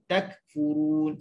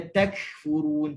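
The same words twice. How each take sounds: First: The k is released with only slight air. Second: The k is released with a strong burst of air. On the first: The speaker calls it right. "takfurun sikit je" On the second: The speaker calls it wrong. "Jangan baca takfurun, tak boleh"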